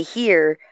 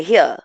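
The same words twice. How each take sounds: First: "here" with a full r at the end; "here" with a clear final r; "here" one way. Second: "here" with the r dropped; "here" clipped, r left off; "here" another way. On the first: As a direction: say "here" as /hiɹ/, ending on the r. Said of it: "the way that I say it". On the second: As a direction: say "here" as /hi/, no r at the end. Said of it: "or I'll say". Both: Shown as a demonstration.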